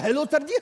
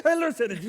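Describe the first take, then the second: First: Mimicking a catchphrase. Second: Mocking catchphrase repeat. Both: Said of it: "You know only two character".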